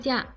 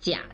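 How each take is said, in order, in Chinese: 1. 这个音节是短促的降调。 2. 这个音节是低的降升调。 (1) "放假念4 声" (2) "念3 声假的时候"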